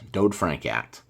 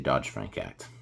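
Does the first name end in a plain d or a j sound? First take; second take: plain d; j sound. First: The first name ends in a plain d sound. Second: The first name ends in a j sound. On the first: The speaker calls it right. "the D O D D Act" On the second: The speaker calls it wrong. "sometimes I say Dodge-Frank Act"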